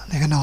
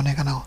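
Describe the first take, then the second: The two takes are said the same way.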